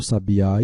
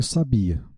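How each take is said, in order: First: Sabiá stressed on the final á; stress on last syllable. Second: Sabia stressed on the bi; stress on middle syllable. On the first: Teacher contrasting two words, sabiá stressed on its last syllable. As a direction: put the weight at the very end of sabiá. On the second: Teacher contrasting two words, sabia stressed on bi. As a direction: put the weight on bi and let the final a of sabia fall away. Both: Shown as a demonstration. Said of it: "O acento gráfico pode mudar a classe".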